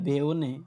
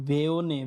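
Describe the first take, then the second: Both takes have the same delivery.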